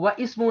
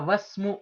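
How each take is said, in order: First: The 'i' sound after 'wa' is pronounced separately. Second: The 'wa' joins straight onto the 's' sound. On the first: The speaker calls it wrong. "व इस्मु नहीं पढ़ूँगा" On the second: The speaker calls it right. "मैं कहूँगा वस्मु"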